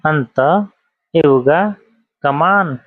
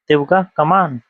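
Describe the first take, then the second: First: The first two words are said fully and separately. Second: The first two words are merged into one shortened word.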